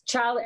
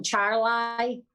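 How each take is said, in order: First: Said in the usual way. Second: "Charlie" said as "Char-lie", ending like the word lie; nickname pronunciation. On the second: Shown as a demonstration. Speaker nicknames the governor, saying "Charlie" as "Char-LIE". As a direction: stretch the end of "Charlie" into a clear "lie". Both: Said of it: "I call him Charlie".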